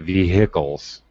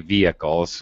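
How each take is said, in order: First: The h sound is pronounced. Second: The h sound is silent. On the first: This is how some British speakers say it. "some Brits will say vehicles, which sounds totally weird to me" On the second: This is how Americans say it. "Americans definitely definitely say vehicles with a silent H"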